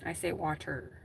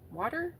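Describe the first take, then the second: First: Her everyday Wisconsin water, flat a; her own water. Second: Southern water. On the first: Shown as a demonstration. To chat viewers, her own way of saying water. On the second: Retold or imitated. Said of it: "That's Southern".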